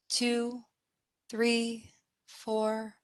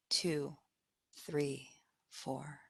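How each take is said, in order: First: Soft, evenly spaced count held up in pitch; inhale count. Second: Very soft, low count fading away; exhale count. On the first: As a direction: count them gently through breathing in. Counting the in-breath. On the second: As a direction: let each number sink as they breathe out. Counting the out-breath. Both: Acted.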